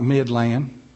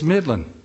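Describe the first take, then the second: First: It is pronounced the way outsiders say it. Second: It is pronounced the way locals say it. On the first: The speaker is not from the area. The speaker calls it wrong. "is not Midland" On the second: The speaker is from the area. The speaker calls it right. "It's Midland. Only foreigners don't know that"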